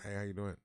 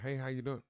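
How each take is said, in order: First: It sounds grumpy and sullen. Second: It sounds cheerful and friendly.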